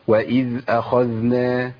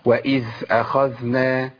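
First: The dh sound is clearly voiced. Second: The dh sound is breathy, like th. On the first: The speaker calls it right. "مطلوب ان انا ابين الصوت زي ما عملت كده" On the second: The speaker calls it wrong. "اسمعوا بقى الخطا، دخلت على مخرج الثاء لاني مشيت النفس"

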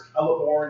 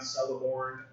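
First: The name begins with a hard k sound. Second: The name begins with a soft s sound. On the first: The speaker calls it right. "C's are hard. It's Celeborn" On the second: The speaker calls it wrong. "not Celeborn"

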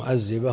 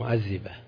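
First: The middle consonant is a 'z' sound. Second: The middle consonant is a 'dh' sound. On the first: This is how people ordinarily say the word. The speaker calls it right. "الناس يقولون" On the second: This is an overcorrection made while trying to sound eloquent. The speaker calls it wrong. "هم يقولون معذبة، لأنهم يخشون أن يقعوا في تصحيفهم"

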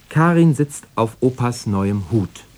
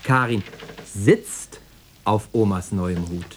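First: The stress falls on the word Hut. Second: The stress falls on the word sitzt. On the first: It is the hat, not a chair, being sat on. "Also nicht auf dem Stuhl, sondern auf Opas neuem Hut" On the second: She is sitting rather than standing. "Stehen wäre ja auch auf die Dauer zu unbequem"

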